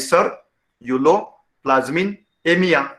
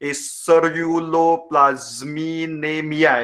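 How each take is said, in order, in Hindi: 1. शब्द पॉज़ के साथ टुकड़ों में बंटा है। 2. शब्द बिना पॉज़ के एक साथ बोला गया है। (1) "ये वर्ड को अगर आप चंक चंक करोगे, टुकड़े करोगे" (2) "डायरेक्टली पढ़ने जाओगे ... ऐसे पढ़ने में आपको दिक्कत हो जाएगा"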